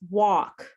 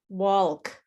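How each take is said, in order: First: No L sound is pronounced. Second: An L sound is pronounced. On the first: The speaker calls it right. "that L is silent. It's walk" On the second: The speaker calls it wrong. "I have many students who say walk"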